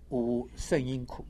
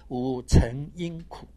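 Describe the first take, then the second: First: The syllable is read shèng, with an 'sh' sound. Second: The syllable is read chéng, with a 'ch' sound. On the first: The five aggregates are blazing and flourishing. "圣就是炽盛啊" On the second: The five aggregates receive the preceding sufferings. "或者念成五成因苦"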